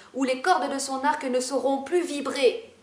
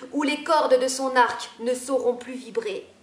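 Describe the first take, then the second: No difference in how they are said.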